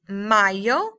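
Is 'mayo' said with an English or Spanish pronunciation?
Spanish. It is said with a Spanish pronunciation. It names the month of May. The speaker calls it right. "May is mayo"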